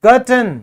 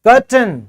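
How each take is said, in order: Both takes have the same delivery.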